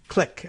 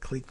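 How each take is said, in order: First: The vowel is short, like in kick. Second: The vowel is long, like in keep. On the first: This is the usual spoken form. "is the way we actually say that" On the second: This is how the spelling suggests it. "it looks like clique"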